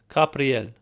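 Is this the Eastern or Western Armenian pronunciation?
Western. It is said with a Western Armenian pronunciation. "in Western Armenian"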